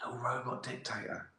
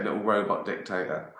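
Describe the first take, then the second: First: Much softer, savoring "robot dictator"; hushed delight. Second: Said in the usual way. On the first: Shown as a demonstration. Delighted at his own phrase, says it softly. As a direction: breathe it like a treasured new idea.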